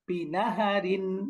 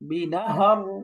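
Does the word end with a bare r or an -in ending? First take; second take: -in ending; bare r. First: The word ends with an -in ending. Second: The word ends on a bare r sound. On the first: The reading continues without stopping. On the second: The reader stops on this word.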